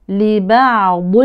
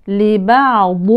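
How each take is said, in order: No difference in how they are said.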